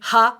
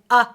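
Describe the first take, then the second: First: The vowel starts with a breathy h sound. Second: The vowel starts with a sharp throat catch. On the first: "Notice I'm not saying ha" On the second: "and I'm not saying uh"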